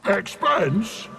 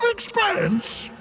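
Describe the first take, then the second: First: Said in the usual way. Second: Much higher, indignant squeak; god affronted by the word; outraged echo. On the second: Acted. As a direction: repeat it in disbelief, offended.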